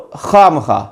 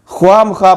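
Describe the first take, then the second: First: خواہ مخواہ with a silent و, khah makhah; correct pronunciation. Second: خواہ مخواہ with the و sounded, khwah makhwah; خواہ مخواہ mispronounced as khwah-ma-khwah; wrong pronunciation. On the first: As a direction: say خواہ مخواہ right, no waw. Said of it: "درست تلفظ ہے". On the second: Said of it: "اکثر لوگ غلط پڑھتے ہیں". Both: Shown as a demonstration.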